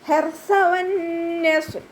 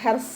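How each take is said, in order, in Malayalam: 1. അവസാന വ്യഞ്ജനം മൃദുവായ 'th' ശബ്ദമാണ്. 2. അവസാന വ്യഞ്ജനം സാധാരണ 's' ശബ്ദമാണ്. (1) "നാവിൻ്റെ കുറച്ച് ഭാഗം പുറത്തോട്ട് കാണുന്ന രൂപത്തിൽ വെച്ചിട്ട് കുറച്ച് എയർ പാസ് ചെയ്യണ സൗണ്ടും കൊടുക്കുക" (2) "സീനിൻ്റെ സൗണ്ടായി പോവാതെ നോക്കുക. ഹെർസ എന്നായി പോകരുത്"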